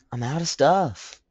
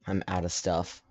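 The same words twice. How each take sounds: First: High, slow, hammed-up bad accent on "I'm out of stuff"; a laughing, badly faked accent, drawn out; horrible accent. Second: Said in the usual way. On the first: Gamer mocks himself in a horrible accent. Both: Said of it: "that was a horrible accent".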